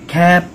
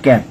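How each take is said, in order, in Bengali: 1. k ধ্বনিটিতে বাতাসের একটি জোরালো ঝলক আছে। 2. k ধ্বনিটি অল্পপ্রাণ, এতে বাতাসের ঝলক নেই।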